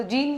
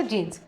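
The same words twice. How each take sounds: First: Said in the usual way. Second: "जीन्स" with a final s, lower and softer; plural ending sounded. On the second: Shown as a demonstration. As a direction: answer with "जीन्स", s on the end. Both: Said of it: "पहले तो जीन नहीं बोलते".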